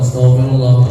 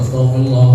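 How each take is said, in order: The two takes are said the same way.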